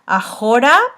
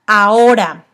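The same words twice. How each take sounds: First: The word starts with an audible h sound. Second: The word starts with no h sound. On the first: The speaker calls it wrong. "I've been hearing some" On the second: The speaker calls it right. "when the H is by itself, it is silent"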